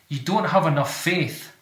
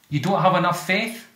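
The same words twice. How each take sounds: First: The voice falls at the end, like a statement. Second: The voice rises at the end, like a question.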